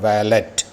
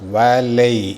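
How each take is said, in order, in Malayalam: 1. അവസാനം വ്യക്തമായ ടി ശബ്ദമുണ്ട്. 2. അവസാനം സ്വരാക്ഷരമാണ്, ടി ഇല്ല. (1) "നോട്ട് വാലറ്റ്" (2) "അവസാനത്തെ ടി സൈലൻ്റ് ആണ്"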